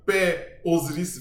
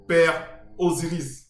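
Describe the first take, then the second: First: Said in the usual way. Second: Père Osiris spelled out slowly; slow, deliberate Père Osiris; slow stress on Père. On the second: Shown as a demonstration. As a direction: lean on Père, drawn out.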